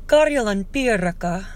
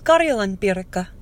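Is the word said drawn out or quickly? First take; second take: drawn out; quickly. First: The words are said slowly, with a lengthened sound. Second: The words are said quickly, without lengthened sounds. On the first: The speaker calls it right. "I'm supposed to draw out the iraka" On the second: The speaker calls it wrong. "I'm probably saying that wrong. I speak too fast for a Finn"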